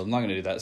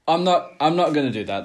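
First: Said in the usual way. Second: Loud, laughing no; laughing refusal. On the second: Real, not acted. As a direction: laugh it off loudly. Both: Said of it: "seems completely disrespectful".

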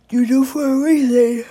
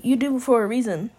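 First: Loud. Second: Said in the usual way. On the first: Real, not acted. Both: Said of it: "Excuse me".

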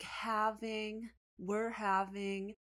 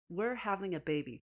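First: Slow, puzzled read-out, stretching each word; slowly deciphering aloud; reading piece by piece. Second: Whole phrase recited without taking it in; mock read-out in one go; reading out loud. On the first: Retold or imitated. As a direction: sound out words as they appear, higher. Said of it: "starts scratching in the middle". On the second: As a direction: read it off a card, uncomprehending. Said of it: "he literally reads out loud".

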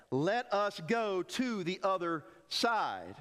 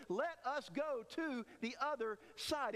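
First: Slow, firm "Let us go to the other side"; every word of "Let us go to the other side" said slowly and firmly as an order; firm command. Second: Soft, slow, settled "Let us go to the other side"; "Let us go to the other side" said softly and slowly, as a certain promise; quiet certainty. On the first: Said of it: "That wasn't a suggestion". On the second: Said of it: "No, he says". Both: Shown as a demonstration.

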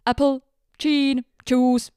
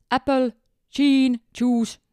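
First: Apple, gin, juice with a second's pause after apple and gin said chin; Finnish-accented English. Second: Apple, gin, juice said Finnish-style, a clear pause after apple, gin as chin; Finnish-accented English. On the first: Retelling how the Finnish passenger ordered, accented English. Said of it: "siinä oli sekunnin tauko sanan apple jälkeen". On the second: A Finnish passenger orders from the steward in broken Finnish-accented English. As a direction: mimic a Finn choppily ordering apple juice. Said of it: "Lausui sen vielä niin, että siinä oli sekunnin tauko".

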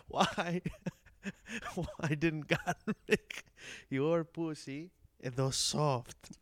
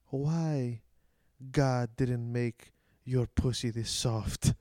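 First: Put-on broken Greek-accented English, slow and cracking up; laughing through the quote. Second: Put-on slow, heavy broken English of an old Greek immigrant, louder; old Greek man's broken English. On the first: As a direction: try to repeat it but keep laughing. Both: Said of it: "broken English".

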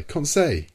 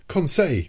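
First: Loud, higher repeated cry. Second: Loud, higher call of alarm; crying out. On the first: The professor calls Conseil off again, loud cry. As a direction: call him off again, urgently. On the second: The professor cries out to stop Conseil, loud call. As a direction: stop him before he fires. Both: A narrator's reading. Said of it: "cried I".

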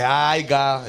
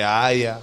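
First: Aiga said slowly, with a clear i glide, as the mistake; mock the wrong aiga, dragging it out; wrong form aiga. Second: Aya said plainly and lower, as the right way; correct form aya. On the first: Correcting a friend's spelling, slowly saying the wrong aiga. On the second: Correcting a friend's spelling, lower for the right aya. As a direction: set the right aya against the wrong one. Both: Shown as a demonstration. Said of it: "por ejemplo, no es aiga".

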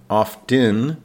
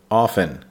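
First: Often said with a clear T, OFF-tin; spell-it-out often, sounding the T. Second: Often said AW-fen, the T silent; often the American way, no T at all. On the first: Teacher showing learners the spelled form: often with T sounded. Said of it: "even though it's spelled O F T E N". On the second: Teacher to learners on American speech: often without the T. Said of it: "the T is silent". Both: Shown as a demonstration.

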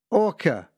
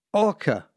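First: Far-off hail with a radio tinge; radio call. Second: Calling a boat name over the radio, pitched up. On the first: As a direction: call it again like a distant radio voice. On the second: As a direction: hail the ship over crackling radio. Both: Retold or imitated. Coast guard calls over radio.

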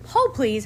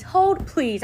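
First: Mild sassy hold. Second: "Hold, please." pitched higher, sharp and sassy, "Hold" stressed. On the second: Vlogger telling the noisy neighbours to wait, higher and sassier. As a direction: escalate the "Hold, please" with irritation. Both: Real, not acted. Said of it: "I'm about to show my ass".

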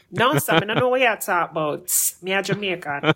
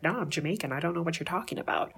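First: Lively Jamaican Patois retort; punchy Jamaican Patois comeback. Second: Said in the usual way. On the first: Acted. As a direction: brush them off in quick Jamaican Patois. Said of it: "Basically, like". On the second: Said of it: "they'll look at you and be like".

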